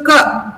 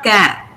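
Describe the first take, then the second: First: "ka" with a brief neutral vowel; very short syllable. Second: "ka" with an open, strong A as in cat; wrong full vowel. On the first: Teacher explaining unstressed syllables, "ka" very short. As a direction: cut "ka" down to a schwa. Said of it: "it becomes very short". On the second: Teacher showing what to avoid, "ka" with full A. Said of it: "it's not ka". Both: Shown as a demonstration.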